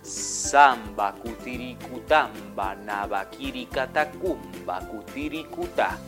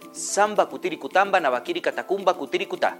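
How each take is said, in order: First: It is said very slowly. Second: It is said at normal speed.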